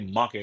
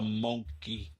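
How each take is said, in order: First: It is said in a plain American accent. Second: It is said in an imitated Zulu-style accent. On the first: "They don't say monkey like us" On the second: "I love the way them people say monkey"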